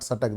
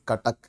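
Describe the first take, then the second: First: The word begins with an s sound. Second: The word begins with a k sound. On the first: The speaker calls it wrong. "Non ओरियन वाले उसको सटक, सटक के हिसाब से pronounce करते हैं। दिस इज नॉट सटक" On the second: The speaker calls it right. "This is कटक। कटक का क का उच्चारण होगा"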